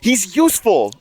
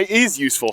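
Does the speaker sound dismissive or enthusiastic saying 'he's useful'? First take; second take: enthusiastic; dismissive. First: It is said warmly and enthusiastically. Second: It is said flatly and dismissively. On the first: The player is genuinely valuable. "that's a that is a compliment" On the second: The player is only adequate, not as good as believed. "that means like. And he's actually not as good as people think"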